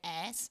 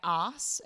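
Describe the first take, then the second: First: It is said with an American accent. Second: It is said with an Australian accent. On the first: "you would say" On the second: "in Australia we would say"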